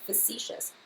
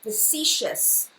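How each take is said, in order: First: Facetious quietly said as fuh-SEE-shus; soft correct Facetious; correct pronunciation. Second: Facetious said slowly as fuh-SEE-shus; careful slow Facetious; correct pronunciation. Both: Shown as a demonstration. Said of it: "This one is called".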